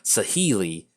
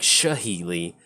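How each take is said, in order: First: The name starts with a plain s sound. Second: The name starts with an sh sound. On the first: The speaker calls it right. "Saheeli is the correct pronunciation" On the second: The speaker calls it wrong. "I've been saying Shaheeli, like it's S H A"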